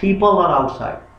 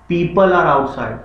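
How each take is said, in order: First: The p sounds have a strong puff of air. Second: The p sounds have no puff of air. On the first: "अंग्रेज क्या बोलता है" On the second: "हम बोलते हैं"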